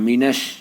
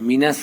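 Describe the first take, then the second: First: The s sound is heavy and thick. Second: The s sound is light and thin. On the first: The speaker calls it right. "এটা মোটা বলতে হবে" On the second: The speaker calls it wrong. "মিনাস বলতে বললে হবে না"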